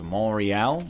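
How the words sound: It is said with a French pronunciation. This is the local French name. "I know that it's Montreal, but I'm not French"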